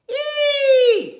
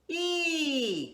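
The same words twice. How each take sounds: First: It is spoken at a high pitch. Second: It is spoken at a middle pitch. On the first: "How about in your high voice?" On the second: "Start in the middle voice"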